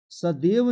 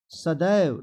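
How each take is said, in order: First: सदैव said as "sadev"; wrong pronunciation. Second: सदैव said as "sadaiv", loud; wide ai in the second syllable of सदैव; correct pronunciation. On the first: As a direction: narrow e in the second syllable of सदैव. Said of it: "सदैव नहीं होता है". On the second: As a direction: open the vowel of सदैव to a glide. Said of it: "डुल्ले की मात्रा देंगे". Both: Shown as a demonstration.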